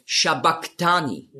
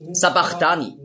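First: "Shabachthani" said as sha-bak-tani; Aramaic pronunciation. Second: "Sabachthani" with s at the start and a throaty German ach sound; "Sabachthani" with initial s and ch as in Bach; common misreading. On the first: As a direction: say "Shabachthani" with sh at the start and a hard k. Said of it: "eigentlich auf Aramäisch ausgesprochen". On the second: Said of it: "lesen viele". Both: Shown as a demonstration.

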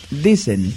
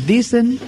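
First: Said in the usual way. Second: Dicen lifted much higher with a heavy punch; stress on dicen. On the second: Shown as a demonstration. Preacher to congregation, stressing dicen high and doubtful. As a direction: hit dicen hard and high, doubting the claim. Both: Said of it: "recalco la palabra dicen".

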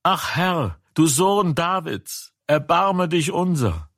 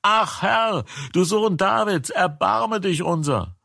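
First: High pleading call for mercy; crying out. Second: Even higher, more desperate plea for mercy; crying out louder. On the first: Blind men begging Jesus for mercy, high pleading cry. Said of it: "schrien sie und sprachen". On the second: Blind men crying out still more after the crowd hushes them, very high and desperate. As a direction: push the pitch way up, begging harder. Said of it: "sie schrien noch mehr". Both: A narrator's reading.

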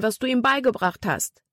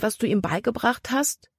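First: "was du ihm beigebracht hast" high, then falling at the end; exclaimed, falling end. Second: "was du ihm beigebracht hast" climbing to a high, questioning end; questioning rise. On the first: Libby assures Caleb, "was du ihm beigebracht hast" as a high falling exclamation. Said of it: "rief sie". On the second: Libby doubts Jordan remembers, "was du ihm beigebracht hast" as a rising question. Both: A narrator's reading.

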